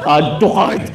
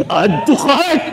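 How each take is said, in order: First: Laughing shopper. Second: High, gleeful "Add to cart!"; giddy shopper. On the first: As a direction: giggly add to cart. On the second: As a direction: squeal it like a shopaholic. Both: Acted. Mimicking wife shopping a sale.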